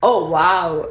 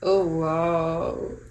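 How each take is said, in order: First: It sounds pleased and delighted. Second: It sounds shocked and disgusted.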